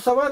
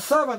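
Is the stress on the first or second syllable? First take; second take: second; first. First: The stress falls on the second syllable. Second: The stress falls on the first syllable. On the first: It means a steppe. The speaker calls it wrong. "саван это степь" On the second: It means a burial garment. The speaker calls it right. "а саван это одежда"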